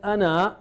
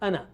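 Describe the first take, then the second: First: The final vowel is held long. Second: The final vowel is cut short. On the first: The speaker calls it wrong. "ana is written as ana" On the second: The speaker calls it right. "you never pronounce that alif. You just say ana"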